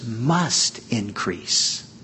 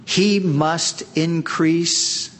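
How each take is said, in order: First: Slow, leaning hard on "must" in "must increase"; stress on must. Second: Slow, "He" lifted and leaned on; stress on he. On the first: Preacher to his congregation, slow stress on "must". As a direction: draw out "must increase", weight on "must". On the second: Preacher to congregation quoting John, slow stress on "He". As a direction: hit "He" in "He must increase", slowly. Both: Shown as a demonstration. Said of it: "the must there".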